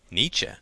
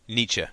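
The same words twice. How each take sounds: First: "Nietzsche" with a rising question tune; questioning echo. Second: Said in the usual way. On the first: A narrator's reading. Student echoes Gordon's answer, questioning rise on "Nietzsche". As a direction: lift the end of "Nietzsche" in doubt.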